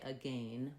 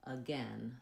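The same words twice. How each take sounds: First: "again" with a long A, like gain; "again" ending in an ay diphthong; British-style pronunciation. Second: "again" with a short eh, like gen; slow, softer "again" with an open eh vowel; American pronunciation. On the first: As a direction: say "again" to rhyme with rain. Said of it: "We don't say again". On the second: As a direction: say "again" slowly, rhyming with then. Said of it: "we have the eh". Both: Shown as a demonstration.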